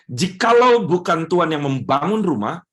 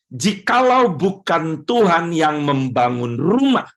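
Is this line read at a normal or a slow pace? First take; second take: normal; slow. First: It is read at a normal pace. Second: It is read slowly and deliberately.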